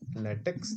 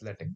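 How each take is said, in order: First: The word ends with a 'ks' sound. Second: The word ends with a 'k' sound. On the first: The speaker calls it wrong. "this is not a latex" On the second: The speaker calls it right. "We pronounce it K"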